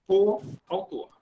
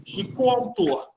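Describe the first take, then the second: First: Said in the usual way. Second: Coautor said slowly, each syllable clear; teacher drawing out the word coautor; slow spelled-out stress. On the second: Shown as a demonstration. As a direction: stretch out coautor so the class hears it. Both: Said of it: "Não tem hífen".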